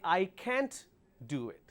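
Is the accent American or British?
American. It is said in an American accent.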